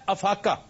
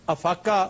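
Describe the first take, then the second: No difference in how they are said.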